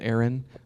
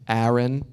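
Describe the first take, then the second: First: It is said in the speaker's usual accent. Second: It is said in an East Coast accent.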